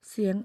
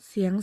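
The two takes are said the same way.

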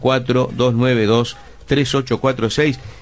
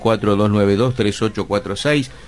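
First: The number is said more slowly. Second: The number is said at a faster pace.

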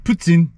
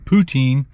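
First: The word is said the cook's harder way. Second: The word is said the familiar everyday way. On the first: The speaker calls it right. "He said it correctly. It's really hard to say it that way" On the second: The speaker calls it wrong. "not poutine"

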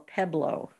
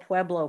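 First: It has the local Colorado pronunciation. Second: It has the familiar, standard pronunciation. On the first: This is how the locals sometimes say it. "sometimes they call Pueblo, Pueblo" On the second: This is how the name is normally said. "sometimes they call Pueblo"

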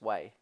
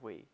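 First: The vowel sounds like the word 'way'. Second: The vowel sounds like the word 'we'. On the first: "It's pronounced like way" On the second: "We say we"

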